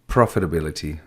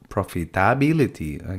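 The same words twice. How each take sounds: First: The vowel in '-ability' is reduced to schwa. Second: The vowel in '-ability' is a full vowel. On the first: The speaker calls it right. "we use the neutra" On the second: The speaker calls it wrong.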